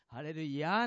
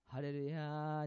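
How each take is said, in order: First: The final syllable ya is emphasized. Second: The final syllable ya is not emphasized. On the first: The speaker calls it right. "あのヤというのはヤハウェのヤです" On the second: The speaker calls it wrong. "ハレルヤじゃなくて"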